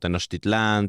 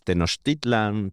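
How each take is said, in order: First: The stress falls on the final syllable. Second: The stress falls on the second-to-last syllable. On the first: This is the Spanish-adapted form. The speaker calls it wrong. "está castellanizado" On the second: This is the original Nahuatl form. The speaker calls it right. "en el náhuatl en verdad ... son casi todas graves"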